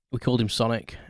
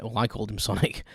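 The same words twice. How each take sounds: First: Said in the usual way. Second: "I" picked out as a correction; stress on I. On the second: Real, not acted. Owner correcting who named the hamster, stress on "I". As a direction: lean on "I", with a small laugh before "Sonic".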